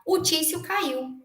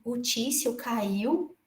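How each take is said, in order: First: High, slow retelling of the friend's news; friend's news, slow and drawn out. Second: Very slow, soft, stunned repeat; hearing the harasser fell, stunned and quiet; disbelieving echo. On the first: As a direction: announce the fall with weight. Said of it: "Tô botando aqui o nome fictício". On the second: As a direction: hold back the astonishment as you echo it. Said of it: "Eu falei assim". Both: Retold or imitated.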